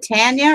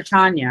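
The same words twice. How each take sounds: First: "Tanya" with a short flat a, as in tan; first pronunciation option. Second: "Tanya" with an open ah, TAHN-ya; alternative pronunciation. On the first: Asking a viewer which name is right, TAN-ya pronunciation. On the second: Offering a viewer the other option, TAHN-ya pronunciation. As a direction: say Tanya to rhyme with Sonya. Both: Shown as a demonstration. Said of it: "Is it Tanya or Tanya?".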